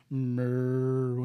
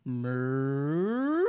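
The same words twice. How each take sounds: First: Low, calm cow moo. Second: Crazed cow moo; mad cow moo. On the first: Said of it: "a regular cow". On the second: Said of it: "then you got the mad cow". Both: Retold or imitated.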